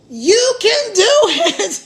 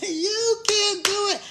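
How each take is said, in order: First: Slow, louder, with a real laugh in it; laughing encouragement. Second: Softer, slow, earnest; soft encouragement. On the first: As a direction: cheer them on while laughing. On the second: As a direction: say it gently and sincerely. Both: Real, not acted.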